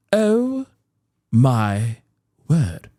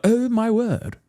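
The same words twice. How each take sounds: First: Each word set apart by pauses, dropping lower; mock pearl-clutching shock. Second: High, prim gasp of mock dismay; mock pearl-clutching shock. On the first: Shocked voters taking in the lie, slow mock shock. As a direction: drag out the horror word by word. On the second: Shocked voters reacting to the lie, mock pearl-clutching. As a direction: clutch the pearls in scandalized disbelief. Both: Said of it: "They're all clutching their pearls".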